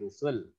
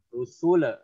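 First: The final L ends cleanly with no extra vowel. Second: The final L bounces into an extra vowel. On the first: The speaker calls it right. "Dia nggak ada kol-kolah atau mantul" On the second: The speaker calls it wrong. "jangan kamu ada kol-kolah atau tawalut"

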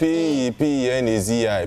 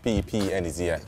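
First: The letters are spelled out slowly. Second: The letters are spelled out at normal speed.

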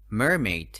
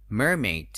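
Both takes have the same delivery.

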